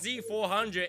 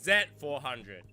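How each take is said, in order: First: The letter is pronounced 'zee'. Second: The letter is pronounced 'zed'. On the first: The speaker calls it wrong. "It's not" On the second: The speaker calls it right. "Get that right"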